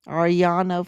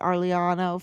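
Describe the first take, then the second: First: The name is pronounced the Spanish way. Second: The name is pronounced the Italian way. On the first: "I guess that's how you would say it in Spanish" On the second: "I'm saying it like it's it's Italian"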